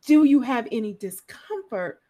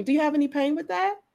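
First: "Do you have any discomfort?" with a louder, weighted opening; the better question, leaning on "discomfort"; stress on discomfort. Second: Lightly voiced doctor asking about "pain"; a plain question that puts the weight on "pain"; a hint of a routine doctor's question ending on "pain"; stress on pain. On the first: Retold or imitated. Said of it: "if he would have asked me". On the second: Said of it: "he always asks me".

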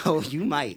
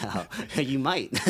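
First: Higher, louder through laughter; louder laughing. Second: Slow teasing words through laughter; laughing. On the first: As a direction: let the laugh take over. Teasing co-host, laughing harder. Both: Real, not acted.

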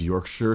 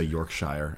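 First: "Yorkshire" said YORK-shuh, with a short unstressed ending; the local way: "Yorkshire" as YORK-shuh; correct pronunciation. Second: "Yorkshire" said YORK-shire, rhyming the end with fire; the American mistake: "Yorkshire" as York-SHIRE-er; wrong pronunciation. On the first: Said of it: "glad you pronounced it as Yorkshire". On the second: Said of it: "no longer have to say Yorkshire". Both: Shown as a demonstration.

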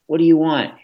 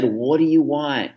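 First: More exasperated. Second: Put-on higher, pleading with a crying toddler; a frustrated parent at the end of her rope; mild exasperated plea. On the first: Retold or imitated. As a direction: snap the question out as patience runs out. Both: Exasperated parent, crying baby in car.

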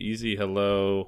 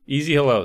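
First: Slow, laid-back easy hello. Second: Louder, punchy easy hello. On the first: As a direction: stretch the hello out gently. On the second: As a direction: hit the hello with energy. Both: Shown as a demonstration.

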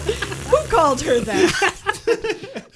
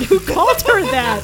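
First: Slow, stretched out through laughter; can't get the words out for laughing; cracking up in disbelief. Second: Incredulous. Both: Real, not acted. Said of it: "Oh, dear God".

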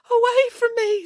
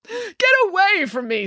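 First: High, tearful echo; crying echo. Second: High, repelled exclamation; angry rejection. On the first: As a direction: repeat it back, crying. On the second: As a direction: drive someone away in disgust. Narcissus repels the nymph. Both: A narrator's reading.

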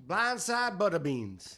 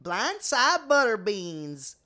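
First: Slow, drawn-out Southern country voice; country accent. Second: Slow, louder Southern country drawl; country accent. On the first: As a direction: drawl blindside butter beans like a country bumpkin. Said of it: "Everybody do your best country voice". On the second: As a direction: really lean into the country twang, slowly. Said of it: "Wow, that was really good". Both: Pretend.

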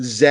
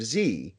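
First: "Z" said as "zed", ending in a d; British-style Z. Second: Said in the usual way. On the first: Shown as a demonstration. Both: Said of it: "and Z instead of Z".

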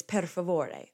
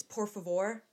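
First: "per favore" with an "eh" in per, ending "-ay"; Italian version. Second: "por favor" with an "or" vowel, no final vowel; Spanish version. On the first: Showing the Italian word, "per favore" ending "-ay". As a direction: say "per favore" sounding the final e. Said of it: "In Italian". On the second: Showing the Spanish word, "por favor" ending on r. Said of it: "Like, in Spanish". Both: Shown as a demonstration.

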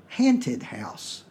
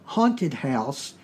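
First: "hanted" said with a flat "a" as in hat, slowly; Virginia pronunciation. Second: Said in the usual way. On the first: Shown as a demonstration. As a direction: say "hanted" like "ant", not "haunt". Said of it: "is pronounced hanted". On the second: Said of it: "the phrase haunted house is pronounced".

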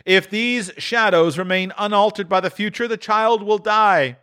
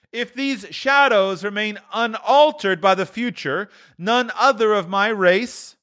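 First: Higher, solemn spirit voice; the ghost. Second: The ghost. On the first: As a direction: foretell the empty seat gravely. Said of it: "replied the ghost". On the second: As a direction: turn Scrooge's words back on him. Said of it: "returned the ghost". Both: A narrator's reading.

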